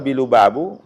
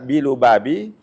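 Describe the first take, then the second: First: The word ends with a u vowel. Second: The word ends with an i vowel. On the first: The title is quoted unchanged as a fixed name. "Kalau bilu babu, nah itu qasdul hikayah" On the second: The noun is governed by the preposition bi. "Kalau dibaca bilu babi, karena memang ada di situ huruf jar"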